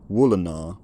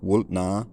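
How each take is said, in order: First: A weak vowel fills the middle of the word. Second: A glottal stop breaks the middle of the word. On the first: This is the later form of the word. "turning it into a colourless vowel" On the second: This is the older form of the word. "that discontinuous glottal stop in the middle of the word"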